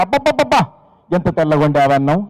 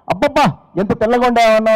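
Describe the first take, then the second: First: Overdone admiring husband; gushing praise. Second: Higher mock rapture over rice; husband overdoing praise to his wife; gushing praise. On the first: Retold or imitated. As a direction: ham up the delight at plain rice. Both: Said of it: "ఎలా అభినందిస్తున్నాడు చూడండి".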